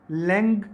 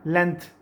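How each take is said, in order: First: लेंथ said with a nasal ng and a hard g-like ending; correct pronunciation. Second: लेंथ said with a dental t ending, as people usually say it; common Pakistani pronunciation. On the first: Teacher showing students the correct way to say लेंथ. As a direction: end लेंथ on ng, not on a dental t. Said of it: "तो क्या pronounce करना है आपने?". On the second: Teacher showing students the usual local way of saying लेंथ. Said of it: "यहाँ पे लोग pronounce करते हैं". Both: Shown as a demonstration.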